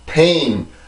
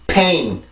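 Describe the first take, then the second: First: The p is weak, pushed by the voice. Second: The p bursts out with strong lip force. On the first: The speaker calls it wrong. "이렇게 소리로 올라가는 게 아니잖아요" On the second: The speaker calls it right. "이렇게 해서 발음을 해주시면 돼요"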